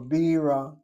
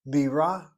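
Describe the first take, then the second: First: The stress is on the first syllable. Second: The stress is on the second syllable. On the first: It means beer. "accenting the first syllable" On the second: It means a capital city. "accenting the second syllable"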